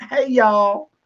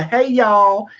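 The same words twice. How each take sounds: First: Drawn-out Southern drawl, pitched higher; Southern accent. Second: Said in the usual way. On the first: Shown as a demonstration. Host demonstrating the greeting for Australian guests, Southern accent. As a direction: give it a stretched Southern twang. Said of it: "say it with a Southern accent". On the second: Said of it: "how you say".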